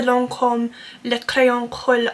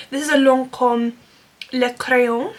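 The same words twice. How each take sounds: First: Clumsy attempt at French pronunciation; rough, amateur French accent; bad French accent. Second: Careful second go at a French accent; measured, more convincing French accent; better French accent. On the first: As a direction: attempt the French product name in a poor French accent. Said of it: "such a bad French accent". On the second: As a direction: say the product name carefully in French. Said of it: "That's quite good, actually". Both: Real, not acted.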